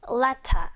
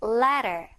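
First: "letter" with a clear t and no final r; crisp t, open r-less ending on "letter"; British pronunciation. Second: American flapped t in "letter"; American pronunciation. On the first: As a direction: say "letter" like "let-tah". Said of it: "트 발음 살리고요". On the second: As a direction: say "letter" like "lerer". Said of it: "미국식으로 발음할 때는". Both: Shown as a demonstration.

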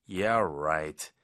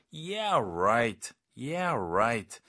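First: Low, drawn-out doubt; understated skeptical "yeah, right"; mild sarcasm. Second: Emphatic, stretched sarcasm; forceful, swooping "yeah, right"; strong disbelief. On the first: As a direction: brush it off with restrained, low-pitched disbelief. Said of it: "좀 더 강하게". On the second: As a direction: push the disbelief hard on both words. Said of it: "좀 더 강하게, 진짜 믿기 힘들 때". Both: Shown as a demonstration.

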